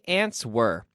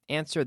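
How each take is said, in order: First: The W sound is pronounced in the word. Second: The W sound is left out of the word. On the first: The speaker calls it wrong. "here we do not say answer" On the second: The speaker calls it right. "The W is silent"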